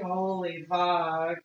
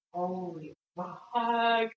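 First: Drawn out in awe; holy fuck, slow and stunned; slow awed swear. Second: Slow awed swear. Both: Real, not acted.

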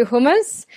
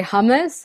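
First: Hummus said the British way, with a rounded HUUM; British "hummus", vowel as in "put"; British pronunciation of hummus. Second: Hummus said the American way, HUM as in "humming"; American "hummus", open first vowel; American pronunciation of hummus. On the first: Coach showing how Brits say hummus, British pronunciation. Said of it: "the Brits say hummus". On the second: Coach showing how Americans say hummus, American pronunciation. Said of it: "the Americans say hummus". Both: Shown as a demonstration.

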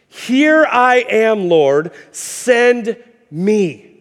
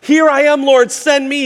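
First: Drawn out, slow and reverent; slow solemn surrender. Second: Higher, louder, eager burst; excited. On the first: Isaiah offering himself to the Lord, slow and reverent. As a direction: let each word land slowly, humbly. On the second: Isaiah eagerly volunteering to the Lord, excited and loud. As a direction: blurt it out eagerly. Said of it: "he's all excited". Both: Retold or imitated.

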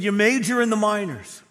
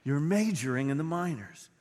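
First: "You major in the minors" shouted high and loud, punching "major"; preaching at full force. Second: Said in the usual way. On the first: Acted. Pastor voicing Jesus' rebuke of Pharisees, "You major in the minors" at full force. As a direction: hammer "major" at full pulpit volume.

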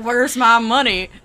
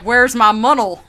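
First: Put-on southern accent, laughing. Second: "munnel" slurred where "money" should be, laughing; tongue-tied southern line. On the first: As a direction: say "Where's my money?" in a joking southern accent. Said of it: "you doing his southern accent". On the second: Retold or imitated. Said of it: "But instead, it was just like".

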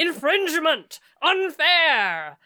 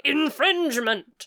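First: Loud high ghostly bellow. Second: Ghost yelling. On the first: Acted. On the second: Retold or imitated. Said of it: "a ghost came up to me and was like".

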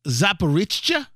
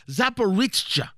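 First: Zaporizhzhia tried carefully as zap-uh-RIZH-uh with a questioning rise; tentative pronunciation. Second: Zaporizhzhia said as zap-uh-RIZH-chuh, settling with a fall; confident pronunciation. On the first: Host attempts a hard Ukrainian place name, unsure and rising. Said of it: "the pronunciation always eludes me". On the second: Host retries the place name after spelling it, settled. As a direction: say Zaporizhzhia firmly, falling at the end. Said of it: "That's how it's spelled". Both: Shown as a demonstration.

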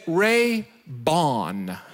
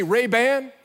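First: "Ray-Bon" drawn out slowly, ending in "bon"; Ray-Bon, misspelt brand. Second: Said in the usual way. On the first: Shown as a demonstration. Pastor reveals the counterfeit label, "Ray-Bon" stretched out slowly. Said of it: "B O N". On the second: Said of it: "where it's supposed to say".

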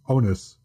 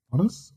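First: "Onus." said OH-nus, firm and falling; corrected word. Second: "honest?" said as the word honest, with a puzzled rising question; wrong word. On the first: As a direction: lands the right word "Onus." with a settled fall. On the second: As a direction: checks the stand-in word "honest?" aloud with a lift at the end. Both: Real, not acted. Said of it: "sometimes I forget how to English".

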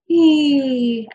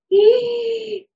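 First: Loud "ee" gliding down on the out-breath; exhalation phonation. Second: Very high, loud "ee" on an in-breath; inhalation phonation. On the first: Clinician models coming back down, exhaled falling "ee". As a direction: let "ee" fall steadily as you breathe out. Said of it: "come back down on that exhalation". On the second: Clinician models for patients, high inhaled "ee". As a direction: squeak out "ee" while breathing in. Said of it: "So you inhale, you do, you use your voice". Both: Shown as a demonstration.

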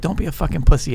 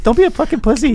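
First: A hint of a tough guy, how it sounds in your head; imagined tough self-talk; tough inner voice. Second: Much higher, thin and unconvincing; mock high-pitched self-pep talk; squeaky out-loud version. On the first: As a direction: growl it like a tough gangster coaching himself. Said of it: "tough gangster guy talking to yourself". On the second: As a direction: say it like the tough line comes out weak and squeaky. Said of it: "when you say it out loud, you're like".

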